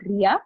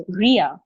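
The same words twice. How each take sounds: First: "Ria" with the speaker's everyday tapped R; usual Indian R. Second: "Ria" with a rolled-back, rounded American R; American-style R. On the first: Trainer showing the name as not said to foreigners, tapped R in "Ria". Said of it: "my name is not Ria". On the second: Introducing myself to a Britisher, "Ria" with a foreign-friendly R. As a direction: curl the tongue for the R of "Ria". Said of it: "if they start to roll their R's". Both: Shown as a demonstration.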